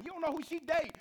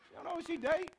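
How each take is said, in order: First: High, loud urgent warning; loud, high warning to the store owner. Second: Repeated through a laugh; amused repeat of the line, laughing. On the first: Retold or imitated. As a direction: shout it as a threat. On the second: Real, not acted. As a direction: laugh at the punchline.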